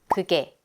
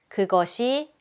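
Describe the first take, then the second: First: It is shortened to two syllables. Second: It is said in full, three syllables.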